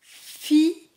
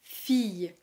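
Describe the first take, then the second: First: "Fille" split as "fi... yeu", first part high and loud; syllable by syllable. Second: Said in the usual way. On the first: Shown as a demonstration. Teacher showing how it is pronounced, syllable by syllable. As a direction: say "Fille" as two sounds, fi, long pause, yeu. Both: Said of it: "Il ne se prononce pas comme il se lit".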